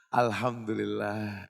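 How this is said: It is said with a smiling, warm voice. The speaker calls it right. "disyariatkan mengucapnya dengan senyum"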